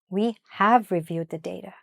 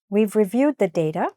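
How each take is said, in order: First: The verb is said in full and stressed. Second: The verb is contracted and unstressed.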